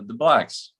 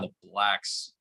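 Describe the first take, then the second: First: It is said in a neutral, matter-of-fact tone. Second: It is said in a contemptuous, loaded tone.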